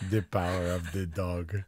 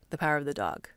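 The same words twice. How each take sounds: First: Vaguely European accent, hard to place; vague Euro accent. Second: Casual, throwaway title read. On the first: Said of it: "like a vague Euro accent". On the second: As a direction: toss the title off. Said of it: "like, kinda throwaway". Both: Shown as a demonstration.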